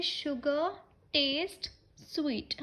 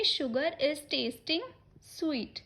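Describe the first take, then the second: First: "Sugar" "taste" "sweet" spoken slowly, each word apart with a pause; slow dictation of the correct form. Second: Said in the usual way. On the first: Shown as a demonstration. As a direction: dictate the right sentence one word at a time. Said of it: "तो हम बोलेंगे". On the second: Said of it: "हम ये नहीं बोलेंगे".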